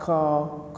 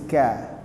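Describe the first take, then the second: First: The syllable is heavy with an o vowel. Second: The syllable is thin with an a vowel. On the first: The speaker calls it wrong. "Jangan ko" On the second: The speaker calls it right. "huruf kaf juga huruf tipis"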